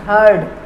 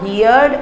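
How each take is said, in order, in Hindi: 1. स्वर 'bird' वाले स्वर जैसा है। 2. स्वर 'here' वाले स्वर जैसा है। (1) "this is हर्ड" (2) "not हियर्ड"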